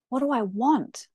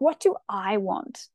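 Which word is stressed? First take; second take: want; I. First: The word 'want' is stressed. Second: The word 'I' is stressed. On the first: "or the want" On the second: "Emphasis on the I"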